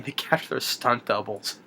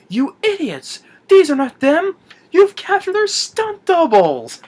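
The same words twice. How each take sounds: First: Said in the usual way. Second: Very high, loud, hammed-up outrage; mock furious yell. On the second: Retold officer scolding his guards, mock furious. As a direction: berate them, drawing out the final words.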